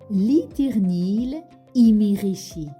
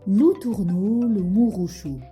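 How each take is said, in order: First: Every vowel is replaced by an i sound. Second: Every vowel is replaced by an ou sound. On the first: "utilise maintenant le son I" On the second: "Avec le son OU"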